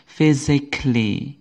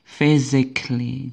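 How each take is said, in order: Both takes have the same delivery.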